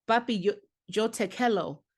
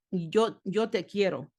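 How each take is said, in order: First: Put-on Spanish in a plain American accent; American-accented Spanish, "quiero" coming out like "kello". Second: "quiero" with a tapped Spanish r; correct Spanish pronunciation. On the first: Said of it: "I had no Spanish accent". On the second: Shown as a demonstration. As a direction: say "quiero" properly, like "kyero" with a light tap. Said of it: "And it's not quiero".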